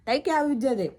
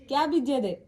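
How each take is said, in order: First: Raised voice calling across the street. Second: Loud repeated call across the street; calling out again. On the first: To Tai sowing seeds across the street, calling out. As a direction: call out to her from the house. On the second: Asking Tai across the street what she sows, calling out. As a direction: call out the question to her once more. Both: Real, not acted.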